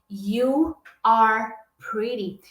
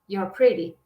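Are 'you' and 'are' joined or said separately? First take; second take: separate; joined. First: You and are are said as separate words. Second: You and are merge into one quick syllable. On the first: "Ao invés de você escutar uma frase assim, ó" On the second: "eu juntei a pronúncia do you e do are"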